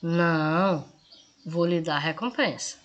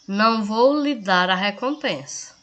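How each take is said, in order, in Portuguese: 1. Há uma pausa depois da primeira palavra. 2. É dito direto, sem pausa. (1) "Aí na segunda, ... aqui eu digo que vou dar recompensa" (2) "Aqui eu afirmo que não vou dar"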